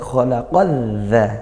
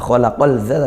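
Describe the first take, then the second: First: The l is silent, merged into the z. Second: An l sound is pronounced before the z. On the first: The speaker calls it right. "tapi khalaqadza" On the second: The speaker calls it wrong. "bukan khalaqalza"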